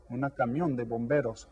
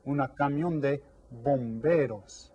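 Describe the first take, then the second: First: Said in the usual way. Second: "bomberos" drawn out slowly, each syllable clear; slow model phrase. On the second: Shown as a demonstration. Teacher slowly models "Una camión de bomberos" for students. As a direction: stretch out "bomberos" for the class.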